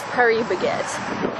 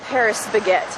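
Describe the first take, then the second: First: The final S of Paris is silent. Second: The final S of Paris is pronounced. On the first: The speaker calls it right. "it's Paris Baguette" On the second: The speaker calls it wrong. "It's not Paris Baguette, ... You don't say the S unless you're a barbarian"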